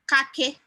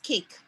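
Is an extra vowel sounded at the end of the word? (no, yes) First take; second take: yes; no. First: An extra vowel is sounded after the final k. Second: The word ends on the k with no vowel. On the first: The speaker calls it wrong. "instead of saying kake" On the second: The speaker calls it right. "it's cake"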